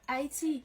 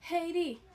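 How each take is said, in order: First: It is said with a French pronunciation. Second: It is said with an English pronunciation. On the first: "Nous-mêmes nous prononçons Haïti. Même gens francophones" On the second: "anglophone nan dit Haiti"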